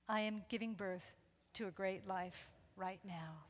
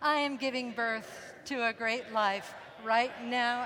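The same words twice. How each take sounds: First: It is said softly and quietly. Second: It is said a little louder.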